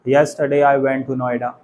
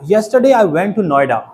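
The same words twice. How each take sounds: First: All words are said evenly with a flat pitch. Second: Key words are louder and higher in pitch. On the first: The speaker calls it wrong. "Simply बोल सकते हैं ... robotic हो गया ना" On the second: The speaker calls it right. "Yesterday important है इसमें ... सो ऐसे बोलेंगे"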